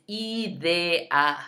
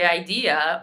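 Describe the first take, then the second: First: Idea as ee-DEH-ah, slow and separated; Spanish idea, drawn out ee-DEH-ah; every vowel pronounced. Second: Idea said the English way, eye-DEE-uh; wrong idea. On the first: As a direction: give each vowel of idea its own beat. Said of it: "saying every vowel". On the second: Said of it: "don't say". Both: Shown as a demonstration.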